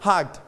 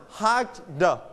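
First: Hugged as one word, the final d barely released; softened final d. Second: Hugged said in two beats, a full "the" after it; "hugged" with separate "the". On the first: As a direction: shrink the "the" to a light d on hugged. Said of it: "volume down นะครับ ลดเสียง the ลงมาเป็น hugged". (hugged เสียง "เดอะ" ท้ายคำเบาๆ) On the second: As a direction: sound out the ending of hugged as a voiced "the". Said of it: "We pronounce it like the". (ออกเสียง hugged แยกเสียงท้าย "เดอะ" ชัดๆ) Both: Shown as a demonstration.

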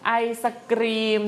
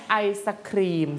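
First: Ice cream with a hard unaspirated k in "kreem". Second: Ice cream with a puffed kh in "khreem"; aspirated kh. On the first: Teacher offers pupils the first word, unaspirated k in "kreem". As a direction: say "kreem" with no puff on the k. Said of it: "เป็นกอไก่". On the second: Teacher offers pupils the second word, aspirated kh in "khreem". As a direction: say "khreem" with air after the k. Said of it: "เป็นคอ". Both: Shown as a demonstration.

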